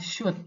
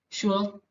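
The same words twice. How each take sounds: First: The L sound is left silent. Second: The L sound is clearly pronounced. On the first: The speaker calls it right. "Tapi yang benar adalah should" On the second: The speaker calls it wrong. "Jangan kita uh, perdengarkan L-nya misalnya should"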